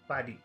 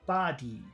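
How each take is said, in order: First: Both vowel sounds are short. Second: Both vowel sounds are long. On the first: "If we made both of the sounds in number one short, it should sound like this" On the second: "If we made them both long, it would sound like this"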